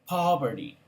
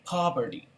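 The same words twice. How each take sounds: No difference in how they are said.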